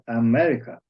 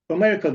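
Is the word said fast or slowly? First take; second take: slowly; fast. First: The word is said slowly with a fuller vowel. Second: The word is said quickly with a reduced vowel. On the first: "yavaş yavaş konuşuyor. ... A ile E arası seçik kullanıyor" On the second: "sözcüğü hızlı konuşurken Amerika diyor"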